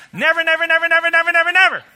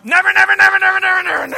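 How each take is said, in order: First: Put-on loud high scold like to children; scolding kids. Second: Mock yell, very high and loud, at the boss. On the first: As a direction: tell the kids never, firmly. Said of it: "pretend like you're talking to your kids". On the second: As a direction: shout never at your boss for fun. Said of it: "pretend like you're talking to your boss".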